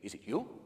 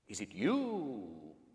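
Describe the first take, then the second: First: It is said in a plain, less dramatic way. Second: It is said in a dramatic, scary way.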